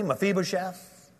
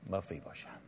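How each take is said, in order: First: It is said firmly, with authority. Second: It is said gently, with compassion.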